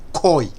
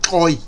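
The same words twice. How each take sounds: First: The word begins with a plain k sound. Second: The word begins with a click sound. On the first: This is how outsiders say the name. The speaker calls it wrong. "Europeans couldn't pronounce the word Koi back in the day, so they call it Koi" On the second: This is how the people themselves say the name. The speaker calls it right. "But their actual tribe is Koi"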